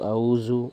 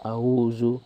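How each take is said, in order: First: The middle consonant is a buzzing z sound. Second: The middle consonant is a buzzing z sound.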